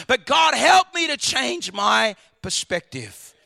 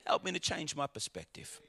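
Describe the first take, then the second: First: Slow, loud cry to God; loud prayer. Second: Much lower and much softer, a hushed plea; quiet prayer. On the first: Preacher cries out to God for a new perspective, slow and loud. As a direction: call out to God for help. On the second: Preacher repeats his prayer to God in a hushed voice. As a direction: drop to a hushed personal prayer. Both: Real, not acted.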